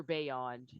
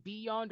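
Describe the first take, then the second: First: Beyond offered as the other option, BAY-ond; alternative pronunciation. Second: Beyond offered as one option, BEE-yond; first pronunciation offered. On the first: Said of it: "I say Beyond in my mind because it's an ode to a singer". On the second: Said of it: "is it Nadine Beyond or Beyond?". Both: Shown as a demonstration.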